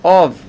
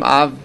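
First: The vowel sounds like 'o'. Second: The vowel sounds like 'a'. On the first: The speaker calls it wrong. "היינו צריכים לומר אוב" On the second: The speaker calls it right. "למה אנחנו אומרים אב"

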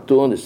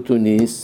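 First: The stress is on the first syllable. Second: The stress is on the last syllable. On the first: The speaker calls it right. "תוניס, מלעין" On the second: The speaker calls it wrong. "לא תוניס, מלרע"

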